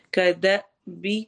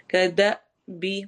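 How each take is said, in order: First: کدأبی with a clipped stop on the hamza; jerk on the hamza. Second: کدأبی with a sharp catch on the hamza; jerk on the hamza. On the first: (ہمزہ پر جھٹکا دے کر) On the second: (کدأبی میں ہمزہ پر جھٹکا) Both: Shown as a demonstration. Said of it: "جھٹکا دے کے پڑھتے ہیں".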